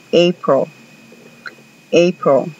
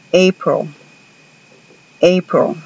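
First: April said like EY-pril; model pronunciation, again. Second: April said like EY-pril; model pronunciation. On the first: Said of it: "así se pronuncia". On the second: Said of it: "Pongan atención a la pronunciación de April". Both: Shown as a demonstration. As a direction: clear English model.

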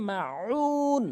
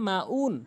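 First: মা উন with throaty, higher, long-held উ; correct ain. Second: Quick মা উন with a plain "oon"; wrong, dropped ain. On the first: Shown as a demonstration. Teacher gives the correct version, held throaty chant. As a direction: squeeze the throat on উ of মা উন and sustain it. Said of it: "সঠিক উচ্চারণ হচ্ছে". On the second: Retold or imitated. Teacher mimics what most people say, plain quick vowels. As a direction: say মা উন short, no throat sound. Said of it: "অনেক অধিকাংশ লোক এখানে বলে".

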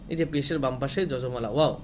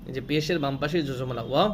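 The two takes are said the same way.

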